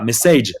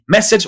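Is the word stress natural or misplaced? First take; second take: misplaced; natural. First: The stress falls on a syllable English speakers avoid. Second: The stress falls where English speakers normally put it. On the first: The speaker calls it wrong. "on dit pas message, sinon on te comprend pas" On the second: The speaker calls it right. "On dit message"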